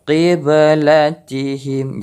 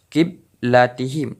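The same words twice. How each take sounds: First: Slow "qiblatihim" with a clear echo after the b; bounced ba. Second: "kiblatihim" with a plain k and closed b; wrong way, no bounce. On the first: Teacher showing the right reading, bounced ba. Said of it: "pantulan ba itu terdengar". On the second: Teacher showing the wrong reading, flat ba. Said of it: "bukan kiblatihim". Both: Shown as a demonstration.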